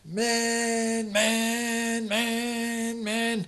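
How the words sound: The shouts run together in one continuous stream.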